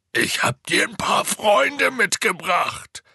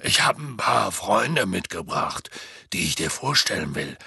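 First: Slow, high, loud shout; Hagrid. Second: Big gruff-hearted friend announcing guests; put-on character voice, firmly announcing; Hagrid. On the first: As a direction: spell it out at full volume for a giant. Repeats louder for the giant. (langsam und laut gerufen) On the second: Hagrid introduces friends to the giant. (Hagrids Stimme, ankündigend) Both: A narrator's reading.

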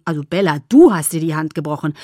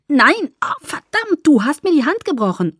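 First: "du" punched loud, lower-voiced correction; firm retort with a loud, emphatic "du"; stress on du. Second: High, loud cursing in pain; frantic, pain-stricken accusation; pained outcry. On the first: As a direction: throw the blame back by hitting "du" hard. He corrects who broke the hand. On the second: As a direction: blame him through the pain. Acted outcry over a broken hand. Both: A narrator's reading.

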